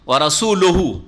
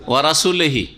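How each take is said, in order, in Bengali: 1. লামের পরের স্বরধ্বনি 'u'। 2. লামের পরের স্বরধ্বনি 'i'। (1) "লামে কি দিবেন? দাম্মা, পেশ দিয়ে" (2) "লামে কাসরা দিয়ে পড়েছে"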